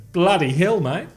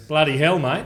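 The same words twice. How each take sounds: First: Attempted Kiwi exclamation; mock New Zealand accent. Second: Lightly voiced Aussie exclamation; mock Australian accent. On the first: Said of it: "And the New Zealanders were going". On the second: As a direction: imitate an Australian. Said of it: "Like the Australians were going".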